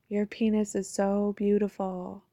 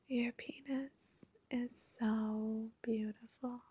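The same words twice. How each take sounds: First: It is said in her ordinary speaking voice. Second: It is said in a soft, sweet, sultry voice.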